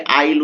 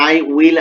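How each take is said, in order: First: "আইল" said as one short syllable, I'll; teacher demonstrates "আইল" as the short form of I will; contracted pronunciation. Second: Said in the usual way. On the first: Shown as a demonstration. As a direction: squeeze "আইল" into a single clipped syllable. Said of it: "উচ্চারণ হবে". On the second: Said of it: "এটাকে short ফরম্যাটে নিয়ে এসে".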